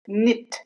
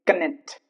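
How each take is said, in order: First: The K at the start is silent. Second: The K at the start is pronounced. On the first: The speaker calls it right. "K before N" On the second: The speaker calls it wrong. "It's not knit"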